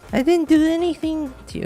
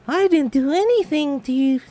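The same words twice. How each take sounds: First: It is said in the speaker's normal voice. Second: It is said in a perky, childlike Venti voice.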